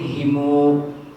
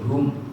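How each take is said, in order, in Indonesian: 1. Kata ini terdiri dari i, lalu m, lalu u. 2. Kata ini berakhir dengan vokal u sebelum m. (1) "Ada yang himu" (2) "pakai hum"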